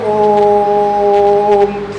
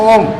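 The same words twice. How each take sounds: First: The vowel is drawn out long. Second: The vowel is said short. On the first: It is used as a mantra. "मंत्र के रूप में ... ओ के उच्चारण में बहुत ज्यादा समय लगा है" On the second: It is used as a person's name. "किसी का नाम ओम है"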